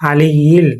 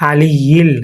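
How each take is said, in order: Both takes have the same delivery.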